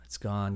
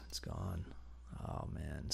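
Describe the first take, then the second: First: Said in the usual way. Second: It's gone breathed out as a whisper; whispered disappointment. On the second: Real, not acted. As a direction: whisper it, deflated, much softer. Whispered repeat after plain.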